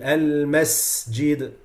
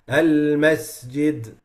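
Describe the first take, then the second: First: The s is said with a strong, full whistle. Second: The s is said with a weak, light whistle. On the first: The speaker calls it right. "it has to be al-masjid. Don't be shy with the uh, whistle" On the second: The speaker calls it wrong. "weakening the the uh, the whistling, it becomes al-masjid"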